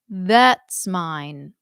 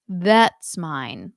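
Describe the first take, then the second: First: That's has a narrower vowel, as in bet. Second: That's has a narrower vowel, as in bet.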